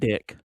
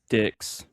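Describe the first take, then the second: First: The name ends with a plain k sound. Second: The name ends with a ks sound. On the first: The speaker calls it wrong. "not dick" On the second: The speaker calls it right. "Dicks, not dick. There's an X"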